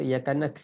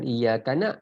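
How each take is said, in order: First: The word ends with a plain k sound. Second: The word has a plain glottal stop. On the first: "itu lagi salah"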